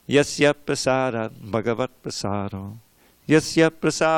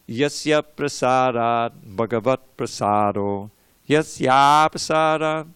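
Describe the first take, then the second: First: The A vowels are cut short. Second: The A vowels are held long. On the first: The speaker calls it wrong. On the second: The speaker calls it right.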